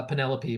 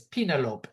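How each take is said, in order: First: Said in the usual way. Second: Penelope said as "PEE-nuh-lope", rhyming with envelope's end; misread Penelope. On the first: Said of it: "Her name is, yeah". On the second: Acted. Imitating a man reading a name tag, Penelope as "PEE-nuh-lope". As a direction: misread Penelope in three syllables, ending in "lope". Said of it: "reads her name tag and says".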